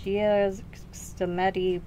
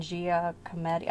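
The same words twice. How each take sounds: First: Giacometti said very slowly, groping through the syllables; a tentative, drawn-out Giacometti; unsure first try at a name. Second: Giacometti said slowly and carefully as jee-uh-kuh-MEH-dee; Giacometti, said deliberately now that it came back; remembered pronunciation. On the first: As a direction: sound it out hesitantly, Giacometti. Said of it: "I'm gonna butcher this name". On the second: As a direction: land the recalled Giacometti with care. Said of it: "I think is how it was pronounced". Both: Real, not acted.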